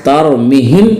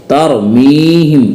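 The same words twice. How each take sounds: First: तरमीहिम with a short "mi"; wrong short vowel. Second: तरमीहिम with a long, held "mee"; correct long vowel. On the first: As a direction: say तरमीहिम quickly, middle vowel unstretched. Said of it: "नहीं पढ़ेंगे". (तरमीहिम में मी छोटा, ग़लत) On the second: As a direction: stretch the middle vowel of तरमीहिम. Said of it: "पढ़ेंगे". (तरमीहिम में मी खींचकर) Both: Shown as a demonstration.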